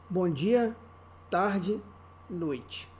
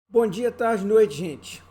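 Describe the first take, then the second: First: It is said slowly. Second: It is said fast.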